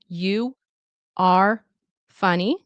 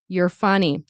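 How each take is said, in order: First: Each word is said slowly and separately. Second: 'You are' is contracted into one quick syllable. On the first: "slow and careful" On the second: "in fast speech, we will reduce it to you're"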